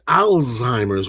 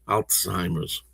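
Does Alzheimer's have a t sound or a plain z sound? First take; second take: z sound; t sound. First: The middle is a plain z sound. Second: The middle has a slight t sound. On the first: The speaker calls it wrong. "It's Alzheimer's with a Z" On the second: The speaker calls it right. "like a slight T sound"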